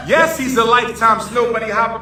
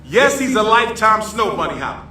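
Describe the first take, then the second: First: Laughing through the words; breaking into laughter on the repeat. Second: Said in the usual way. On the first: Real, not acted. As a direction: crack up while saying it. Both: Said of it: "repeated with laugh".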